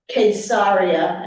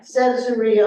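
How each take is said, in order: First: The name is said the local Israeli way. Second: The name is said the usual English way.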